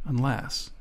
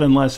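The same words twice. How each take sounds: First: Unless, dropped to a near-silent murmur; very quiet. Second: Said in the usual way. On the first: A narrator's reading. Grant quietly hinting to himself, barely audible. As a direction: say it under your breath so the man can't hear. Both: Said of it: "But he said "unless" very quietly".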